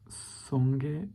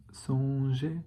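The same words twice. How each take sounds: First: Songer with a hard g, like sogué; a learner trying songer with a hard g. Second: Songer with a soft zh, like sonjé; the corrected songer, soft zh. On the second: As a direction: say songer with the French zh sound. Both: Shown as a demonstration.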